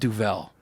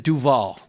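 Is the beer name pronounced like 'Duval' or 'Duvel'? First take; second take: Duvel; Duval. First: The name is pronounced like 'Duvel'. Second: The name is pronounced like 'Duval'. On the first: The speaker calls it right. "but it's called Duvel" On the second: The speaker calls it wrong. "I called it a Duval"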